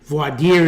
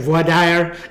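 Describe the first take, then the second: First: It is said the New York way. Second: It is said the Southern way.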